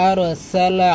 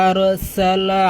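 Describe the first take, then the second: The two takes are said the same way.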